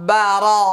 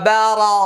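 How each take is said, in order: Both takes have the same delivery.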